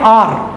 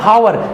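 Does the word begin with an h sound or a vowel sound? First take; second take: vowel sound; h sound. First: The word begins with a vowel sound. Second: The word begins with an h sound. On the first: The speaker calls it right. "अब यहां पर आप इसको बोलेंगे आर" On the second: The speaker calls it wrong. "अब इसको आप हावर नहीं बोलेंगे"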